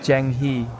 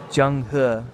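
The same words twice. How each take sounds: First: The vowel in 'He' is not a throaty 'uh'. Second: The vowel in 'He' is a throaty 'uh'. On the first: This is the speaker's habitual way of saying it. The speaker calls it wrong. "I would always say Zheng He" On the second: This is how it is said in Putonghua. The speaker calls it right. "but it's Zheng He. ... E is always uh"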